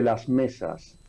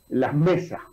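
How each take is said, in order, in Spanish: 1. Los sonidos de la s se pronuncian completa y claramente. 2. Los sonidos de la s se suavizan y se convierten en un sonido h aspirado.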